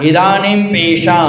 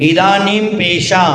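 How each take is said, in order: Both takes have the same delivery.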